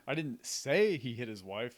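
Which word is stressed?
say. The word "say" carries the main stress. It was implied but not spoken. "I didn't actually verbalize it"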